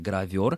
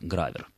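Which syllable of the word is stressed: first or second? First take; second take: second; first. First: The stress is on the second syllable. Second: The stress is on the first syllable. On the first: This is the standard literary form. "Правильное литературное ударение" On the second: This is how professionals in the trade say it. "в речи профессиональной это слово звучит с ударением на первый слог"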